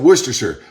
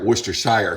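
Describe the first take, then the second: First: The ending is reduced, like in 'Hampshire'. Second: The ending is a full 'shire' sound. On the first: "I pronounce it Worcestershire, like New Hampshire, not Shire" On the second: "some, some people say"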